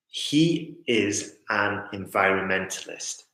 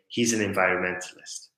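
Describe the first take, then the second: First: The words are said separately, with breaks. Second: The words are linked smoothly together.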